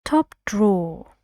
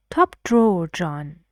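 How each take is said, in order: First: "Top drawer" with a falling tone; falling tune. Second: "Top drawer, John" falling, TOP stressed; falling tune. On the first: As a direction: let "top drawer" fall at the end. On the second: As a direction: drop the voice on "drawer". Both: Shown as a demonstration. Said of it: "Falling, it's a suggestion".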